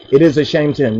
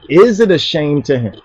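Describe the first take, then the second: First: Falling statement on "It is a shame to him.". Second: Asked as a question, "Is it" put first. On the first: Preacher shows why the statement does not sound like a question. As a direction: drop the tune at the end, no question. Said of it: "That doesn't sound like a question". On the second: Preacher demonstrates how the question is asked. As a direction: ask "Is it a shame to him?" as a question. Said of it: "How you ask the question?". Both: Shown as a demonstration.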